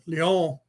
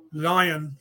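First: Lion said lee-OH, French way; lion pronounced the old French way; French-style lion. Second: Said in the usual way. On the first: Shown as a demonstration. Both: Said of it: "spoken slightly different".

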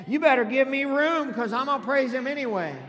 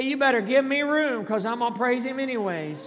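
First: Loud, raised, emphatic declaration; like you mean it. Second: Loud preacher's call for repeating; feed the congregation the line loudly; loud prompt. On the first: Pastor urging congregation to mean it, loud emphatic declaration. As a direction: hit it high and hard with conviction. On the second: Pastor giving congregation words for their neighbor, loud prompt. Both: Shown as a demonstration. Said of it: "You need to say it like you mean it".

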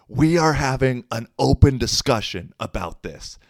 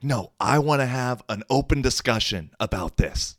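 First: Louder, high mock yell; retold yelling. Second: High, mild mock yell; retold yelling. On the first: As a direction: insist loudly, mimicking her yell. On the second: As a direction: imitate her yelling without full volume. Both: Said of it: "like, yelling".

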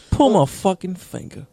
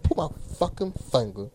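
First: Higher, falling joke command; play-acted magician's order; oddly delivered command. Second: Softer mock copy of a friend; teasing echo in a put-on voice; mimicking friend's delivery. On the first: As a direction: pitch it up, then let it drop. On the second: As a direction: imitate his odd phrasing, quieter. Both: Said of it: "The fuck you say it like that?".

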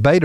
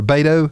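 First: Beto said as "BAY-duh"; reduced last vowel. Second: Beto said as "BAY-toe"; full final O. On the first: Host asking co-host about the name, Beto with a weak "uh" ending. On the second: Host offering the other way to say the name, Beto ending in a full "oh". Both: Shown as a demonstration. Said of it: "is that how he says his name".

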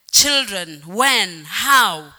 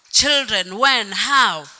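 Both takes have the same delivery.

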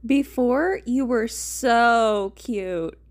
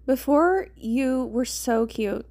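First: "so" hugely stretched and loud, hammed up; heavy stress on so. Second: "so" lightly drawn out, slow; stress on so. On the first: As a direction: exaggerate the word "so", dragging it out slowly. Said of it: "putting an emphasis on the so". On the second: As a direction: lean gently on the word "so". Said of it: "putting emphasis on the so". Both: A narrator's reading.

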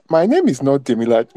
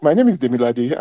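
First: Imitating a strong Igbo accent, "Demilade" said as "Di-mi-lad" with the final vowel dropped; lightly mocking Igbo accent, "Demilade" clipped at the end to "Dimilad". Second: Imitating an Igbo accent, "Demilade" said in full as "Ti-mi-la-di" with a final "i"; a light Igbo accent that sounds out every syllable of "Demilade". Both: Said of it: "In this strong Igbo accent".

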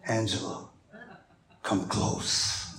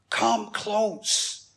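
First: a deep-voiced soul singer. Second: Softened, earnest appeal to a brother; gentle beckoning. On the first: Husband coaxing a kiss from his wife, deep seductive soul-singer voice. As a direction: drop deep and hushed to woo. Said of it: "in my soul-singer verse". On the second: Joseph beckoning his frightened brothers, softly earnest invitation. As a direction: invite them nearer, softly and sincerely. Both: Acted.

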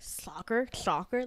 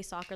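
First: "Soccer" with a slushy, slurred S; childhood speech impediment. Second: Said in the usual way. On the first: Shown as a demonstration. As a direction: say "Soccer" as with a childhood lisp, the S sliding toward SH. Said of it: "like that". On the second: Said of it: "I would say soccer".

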